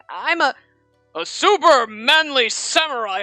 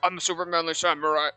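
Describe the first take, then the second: First: It is read in a plain, normal voice. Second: It is read in a put-on deep manly voice. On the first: "I actually read it normal the first time I read it" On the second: "like trying to make a man voice"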